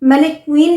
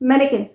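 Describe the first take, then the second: First: The word ends with a long 'kween' sound. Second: The word ends with a short 'kin' sound. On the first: The speaker calls it wrong. "मैनीक्वीन नहीं" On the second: The speaker calls it right.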